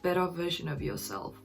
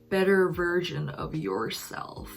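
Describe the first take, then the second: First: It is said in an Australian accent, R dropped. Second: It is said in an American accent, R pronounced. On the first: "But in Australian accent, it would be" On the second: "There's a lot of R in American accent, right?"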